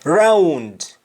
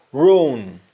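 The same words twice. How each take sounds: First: English-style full ROUND; English pronunciation. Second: ROAN, for round, as "roong"; Jamaican pronunciation. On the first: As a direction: ROUND with "ow" and final D. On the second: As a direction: close vowel, no D in ROAN. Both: Shown as a demonstration.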